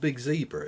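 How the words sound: Zebra is said with an American pronunciation. The speaker calls it wrong.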